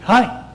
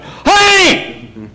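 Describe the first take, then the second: First: It is said softly and calmly. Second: It is said loudly and forcefully.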